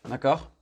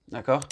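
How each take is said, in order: No difference in how they are said.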